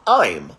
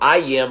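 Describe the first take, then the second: First: I am is shortened into one syllable. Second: I am is said as two full words. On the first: "o gringo ele vai falar I'm" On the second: "quando eu falo aqui no Brasil"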